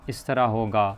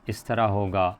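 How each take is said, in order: No difference in how they are said.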